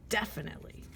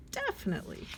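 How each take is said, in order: First: Said in the usual way. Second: Squeaky high definitely; high chirpy "Definitely."; high-pitched. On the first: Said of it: "contrast with next take". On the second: Shown as a demonstration. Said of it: "same word said high".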